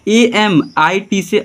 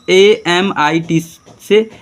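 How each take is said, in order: First: Said in the usual way. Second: Slow spelling. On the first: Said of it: "repeat at normal pace". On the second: Shown as a demonstration. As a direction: spell ए एम आई टी से very slowly, letter by letter. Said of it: "teacher spells slowly, then repeats". (धीरे-धीरे एक-एक अक्षर)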